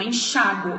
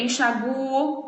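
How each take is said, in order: First: Enxáguo stressed on chá. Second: Enxaguo stressed on the u. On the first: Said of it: "com o acento mesmo". (enxáguo com a tônica no chá) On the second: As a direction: say enxaguo leaning on the u. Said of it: "se não tiver acento". (enxaguo com a tônica no u) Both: Shown as a demonstration.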